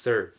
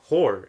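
First: The name begins with an s sound. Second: The name begins with an h sound. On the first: The speaker calls it right. "It's pronounced Sir. You know, very simple, because, you know, H is silent" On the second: The speaker calls it wrong.

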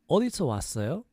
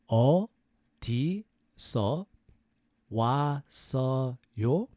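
First: It is said fast. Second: It is said slowly.

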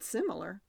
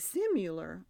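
First: The second syllable has a short 'ih' vowel. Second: The second syllable has a 'yoo' vowel sound. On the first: The speaker calls it right. "you said it right, though. You said similar" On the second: The speaker calls it wrong. "I say similar. So I'm wrong. And I would have spelled it with the U"

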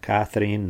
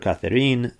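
First: The name is pronounced the English way. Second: The name is pronounced in a non-English way. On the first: "Earlier I pronounced it in English way, more like Catherine" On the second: "I keep switching the pronunciation"

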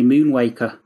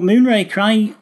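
First: The r sound is replaced by a w. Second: The word is pronounced normally and clearly. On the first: The speaker calls it wrong. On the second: The speaker calls it right.

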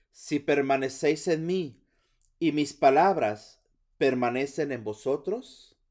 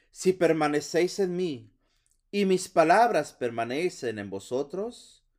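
No difference in how they are said.

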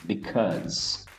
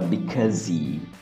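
First: The word ends cleanly on the final consonant. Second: An extra vowel is added after the final consonant. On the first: The speaker calls it right. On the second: The speaker calls it wrong.

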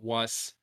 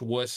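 First: The vowel does not rhyme with bus. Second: The vowel rhymes with the vowel in bus. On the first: The speaker calls it wrong. "not Wuss" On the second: The speaker calls it right. "It's pronounced Wuss, ... It's pronounced like Bussy"

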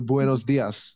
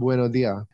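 First: The final s sounds are clearly pronounced. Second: The final s sounds are left out.

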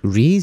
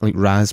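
First: The vowel is a close 'ee' sound. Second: The vowel is an open 'ah' sound. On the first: "becomes R-E-E-Z, like Rees" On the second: "the perfect English pronunciation of a vowel"

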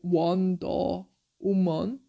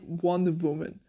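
First: The title is read slowly, word by word. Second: The title is read fast, words run together. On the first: "if you read it with the Korean, kind of" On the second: "if you read it like fast"

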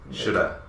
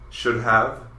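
First: Have is cut down to a schwa vowel. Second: Have is said in full after should. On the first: "Of constantly gets turned into an shoulda" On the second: "should have becomes should've"

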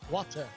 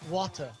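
No difference in how they are said.

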